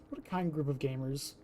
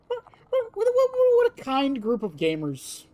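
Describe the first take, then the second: First: Soft, lowered repeat of the remark; low aside. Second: High, loud-edged stuttering start, then falling; high exclamation. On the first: Streamer repeating the remark to self, low aside. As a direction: drop it low and quiet. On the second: Streamer reacting to the gamers, high exclamation. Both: Pretend.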